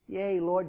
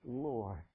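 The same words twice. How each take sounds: First: "Yea, Lord" said louder, with "lord" stressed. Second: "Lord" said low and quiet; "Lord" said low and soft with a falling tune; soft, lower "Lord.". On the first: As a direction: lean into "lord". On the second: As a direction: let "Lord" drop softly. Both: Shown as a demonstration. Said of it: "What does she call him?".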